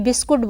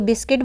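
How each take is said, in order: First: The second syllable has an 'u' vowel. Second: The second syllable has an 'i' vowel. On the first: "ई का ऊ में परिवर्तन कर लेते हैं" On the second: "कभी उसको बिस्किट बोलते हैं"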